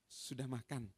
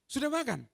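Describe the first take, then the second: First: It is said in a gentle, caring tone. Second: It is said in a harsh, scolding tone. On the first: The listener feels cared for. "Oh diperhatikan" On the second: The listener is being told off for not eating. "Dimarahi karena belum makan"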